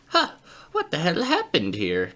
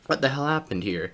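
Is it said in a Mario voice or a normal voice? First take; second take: Mario voice; normal voice. First: It is said in a put-on Mario voice. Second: It is said in his normal speaking voice.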